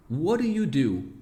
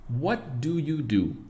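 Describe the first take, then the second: First: "what do you do?" run together as "whadda you do"; natural native pronunciation. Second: Slow, clear word-by-word English; careful slow version. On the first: Teacher showing students native connected speech. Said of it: "como a gente pronuncia perfeitamente". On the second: Teacher to students, slow careful English model. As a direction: spell out "What do you do?" slowly, every word separate. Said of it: "E como a gente fala". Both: Shown as a demonstration.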